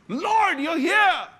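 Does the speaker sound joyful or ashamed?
joyful. It sounds joyful and glad.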